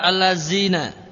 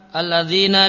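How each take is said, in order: First: The middle consonant is a z sound. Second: The middle consonant is a soft th sound. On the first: The speaker calls it wrong. "dia baca allazina" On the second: The speaker calls it right. "semacam alladzina"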